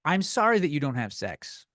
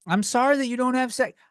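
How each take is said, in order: First: Said in the usual way. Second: Mock sympathy. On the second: Real, not acted. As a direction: sneer it out with fake sorrow. Repeats line for emphasis.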